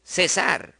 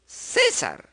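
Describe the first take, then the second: First: "César" stressed on the final sar; light Ce, strong sar in "César"; stress on last syllable. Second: "César" stressed on CÉ; stress on first syllable. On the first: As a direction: say "César" with the beat landing on sar. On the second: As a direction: say "César" with a strong Cé and a weak sar. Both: Shown as a demonstration.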